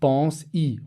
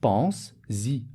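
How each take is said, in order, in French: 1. Les mots sont prononcés sans son z de liaison. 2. Les mots sont liés par un son z. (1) "Je ne vais pas dire pense-y" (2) "Pour faire la liaison, j'ajoute un s à pense"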